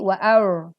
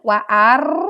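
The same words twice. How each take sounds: First: The r is soft and unrolled, English-like. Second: The r is strongly rolled with many taps. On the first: "terlalu cadel seperti orang Inggris" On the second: "terlalu takrir"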